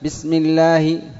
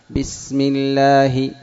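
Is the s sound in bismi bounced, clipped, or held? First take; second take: clipped; held. First: The s is cut short and rushed. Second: The s is held for its full length. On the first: The speaker calls it wrong. "لا تكتم زمنها" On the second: The speaker calls it right. "وإنما أعطيها زمنها"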